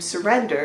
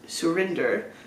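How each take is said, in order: First: The middle syllable sounds like 'ren'. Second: The middle syllable sounds like 'rin'. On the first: This is how others mistakenly said the name. The speaker calls it wrong. "people kept calling him Surrender" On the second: This is the name as it is meant to be. The speaker calls it right. "instead of Surinder"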